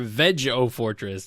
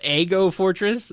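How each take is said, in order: First: The g is soft, as in vegetable. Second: The g is hard, as in egg. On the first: "like vegetable" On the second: "like egg"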